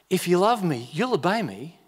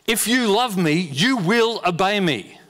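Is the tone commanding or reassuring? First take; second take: reassuring; commanding. First: The words are said in a gentle, reassuring tone. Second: The words are said in a firm, commanding tone. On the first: It is a promise of what will happen. "Or it's a future tense. It will happen" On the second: It is an order that must be obeyed. "One is it's an imperative. It's a decree"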